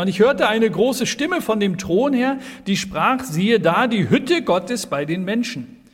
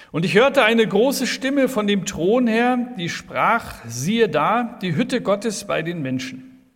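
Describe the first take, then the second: No difference in how they are said.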